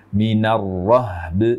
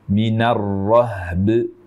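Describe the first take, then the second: The two takes are said the same way.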